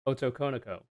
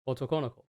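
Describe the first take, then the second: First: It is said with an English accent. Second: It is said with a Japanese accent.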